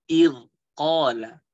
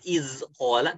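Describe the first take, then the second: First: The consonant is a soft th sound. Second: The consonant is a buzzing z sound. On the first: The speaker calls it right. "tapi id qala" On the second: The speaker calls it wrong. "Bukan iz qala"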